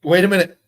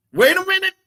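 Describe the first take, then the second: First: Said in the usual way. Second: Much higher, put-on squeaky repeat; hammed-up high-pitched double take; mock high voice.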